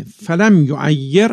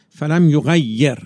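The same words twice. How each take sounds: First: فلم یعیر read with ع, the undotted letter, in یعیر; یعیر said with a clear ع sound; Arabic phrase فلم یعیر pronounced with ع; one reading of the phrase. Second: یغیر read with غ, the dotted letter, in یغیر; یغیر said with a clear غ sound; Arabic phrase فلم یغیر pronounced with غ; alternative reading. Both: Shown as a demonstration. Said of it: "یه نقطه فرقش".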